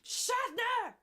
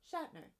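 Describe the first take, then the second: First: It is yelled loudly. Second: It is said at a normal volume.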